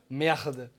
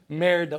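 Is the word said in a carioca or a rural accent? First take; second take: carioca; rural. First: It is said in a carioca Rio accent. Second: It is said in a rural countryside accent. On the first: Even this word sounds pretty. The speaker calls it right. "Vocês falam merda. Até a merda fica bonita aqui" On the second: It sounds ugly. The speaker calls it wrong. "olha que feio"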